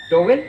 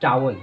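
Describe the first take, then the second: First: Loud टॉवेल with 'to-vel' vowels; common mispronunciation. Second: टावल with an open 'taa' and short ending; taught pronunciation. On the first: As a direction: say टॉवेल louder, full 'vel' ending. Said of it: "आप इसकी pronunciation क्या करते हैं". (टॉवेल, ज़ोर से, 'वेल' पूरा) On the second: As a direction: say टावल as 'TAA-wul'. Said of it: "इसकी right pronunciation होती है". (टावल, 'टा' खुला, अंत छोटा) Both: Shown as a demonstration.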